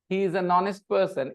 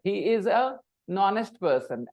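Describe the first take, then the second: First: The article runs smoothly into the next word. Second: The article is separated from the next word. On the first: The speaker calls it right. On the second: The speaker calls it wrong.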